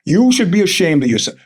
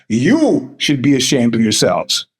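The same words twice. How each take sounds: First: Said in the usual way. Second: Lower, slow, mock-solemn rebuke; lower, slower mock scolding; mock stern scold. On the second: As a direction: drop low and wag a finger. Repeats scolding in a deeper voice.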